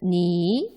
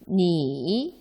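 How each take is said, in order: First: The pitch rises from middle to high. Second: The pitch dips low, then rises. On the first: "이성으로는" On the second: "삼성으로는"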